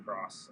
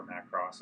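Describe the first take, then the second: First: Macross with a reduced first vowel, "muh-KROSS"; Macross, first syllable unstressed; first pronunciation variant. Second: Macross with a full first vowel, "MACK-ross"; Macross, first syllable clearly sounded; alternate pronunciation. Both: Shown as a demonstration. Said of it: "however you wanna pronounce it".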